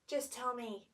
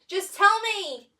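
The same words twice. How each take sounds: First: It is said in a calm, plain tone. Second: It is said in a scared tone.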